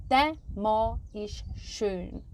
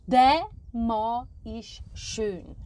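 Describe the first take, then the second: Both takes have the same delivery.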